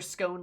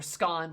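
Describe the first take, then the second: First: The vowel rhymes with 'own'. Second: The vowel rhymes with 'gone'. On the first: "like own" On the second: "like gone"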